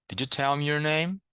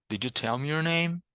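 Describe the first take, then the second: Both takes have the same delivery.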